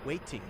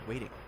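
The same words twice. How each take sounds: First: The middle consonant is a clear t. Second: The middle consonant is a light d. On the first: "instead of" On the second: "it's called the light D"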